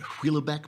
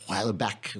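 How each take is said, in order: First: The name is said with an American pronunciation. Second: The name is said with a French-style pronunciation. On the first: This is how the speaker himself says it. "I pronounce it" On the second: This is how others are heard to say it. "when I hear it, it's pronounced"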